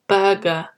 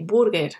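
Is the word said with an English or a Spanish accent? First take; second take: English; Spanish. First: It is said with an English accent. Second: It is said with a Spanish accent. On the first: "but in English, listen carefully, we say burger" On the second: "in Spanish, you would say burger"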